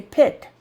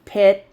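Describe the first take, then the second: First: "pit" with a hard, released final T; over-stressed T. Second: "Pit" with the T stopped, barely released; quiet final T. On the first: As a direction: pop the T at the end of "pit". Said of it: "We don't say pit". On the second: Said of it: "It's very quiet". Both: Shown as a demonstration.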